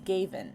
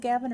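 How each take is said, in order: First: The first vowel is a long a sound. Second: The first vowel is a short a sound. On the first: "long A?" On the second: "Short A"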